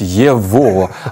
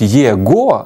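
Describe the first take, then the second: First: The middle consonant is a V sound. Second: The middle consonant is a G sound. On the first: "а вимовляють «єво»" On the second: "пишуть «єго»"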